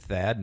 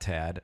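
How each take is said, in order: First: The name begins with a 'th' sound. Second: The name begins with a plain 't' sound. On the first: The speaker calls it right. "It is Thad, the H is not silent" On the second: The speaker calls it wrong. "not Tad"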